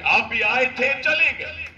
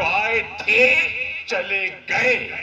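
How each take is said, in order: First: Mocking retort. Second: Dismissive quote. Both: Shown as a demonstration. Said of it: "یہ الفاظ استعمال کریں".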